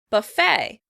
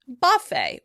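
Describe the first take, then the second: First: The stress is on the second syllable. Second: The stress is on the first syllable. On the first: "the word would be pronounced on the second syllable" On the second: "with stress on the first syllable"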